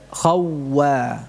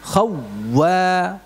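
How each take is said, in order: First: Khawwa with a rounded, scraping kh; Khawwa, lips rounded on kh; kh demo. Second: Khawwa with a raspy kh, marked as wrong; wrong kh sound. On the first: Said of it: "ya, tidak". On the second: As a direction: say khawwa with a scraping kh, the mistake. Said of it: "jadi bukan". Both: Shown as a demonstration.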